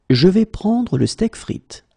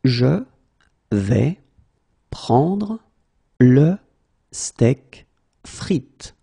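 First: Said in the usual way. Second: Slow, word by word. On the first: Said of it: "teacher repeats full sentence". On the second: Shown as a demonstration. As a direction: pause after every word. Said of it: "teacher drills word by word".

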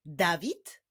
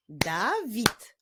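First: Said in the usual way. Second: "Dawid" as da, pause, wid; "Dawid" syllable by syllable; split into syllables. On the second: Shown as a demonstration. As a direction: break "Dawid" into two beats. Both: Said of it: "imię zbudowane z dwóch".

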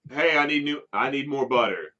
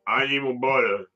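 First: Louder mock shout at the employee. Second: Muffled and louder, as if through a double chin. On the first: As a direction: call across the room for butter. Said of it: "just shouting out". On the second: Retold or imitated. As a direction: smother the words while demanding butter. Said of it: "But kinda muffled 'cause there's, like, this chin".

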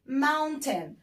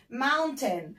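No difference in how they are said.

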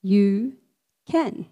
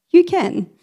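First: Said in the usual way. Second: You can, higher and louder, a rousing shout; emphatic call. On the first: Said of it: "Say it with me". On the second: Shown as a demonstration.

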